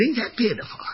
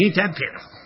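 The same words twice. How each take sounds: First: Ain't that pitiful pitched high and softer, in mock sympathy; mock pity. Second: Said in the usual way. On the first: Father repeating it to his son, higher soft mock pity. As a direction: coo it like pitying a little thing. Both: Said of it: "I said".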